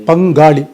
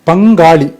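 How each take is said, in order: No difference in how they are said.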